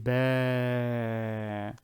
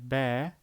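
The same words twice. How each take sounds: First: The vowel is long. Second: The vowel is short. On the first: "This is the long A" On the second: "instead of saying ba, which is ba fatha"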